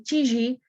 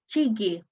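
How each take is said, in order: First: The middle consonant is a soft j sound. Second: The middle consonant is a hard g sound. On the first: This is the Levantine way of saying it. "we say tiji" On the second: This is the Egyptian way of saying it. "they say tigi"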